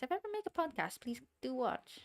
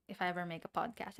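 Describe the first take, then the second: First: High-pitched, louder playful appeal; playful plea. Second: Said in the usual way. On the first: Real, not acted. Streamer asking chat to watch a future podcast, high playful plea. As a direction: plead sweetly, pitched way up.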